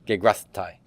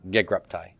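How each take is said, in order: First: A breathy fricative comes before the t. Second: A plain stop comes before the t. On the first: The speaker calls it wrong. "you're having to blow air through one consonant and then immediately stop it" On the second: The speaker calls it right. "just the stop P plus the stop T"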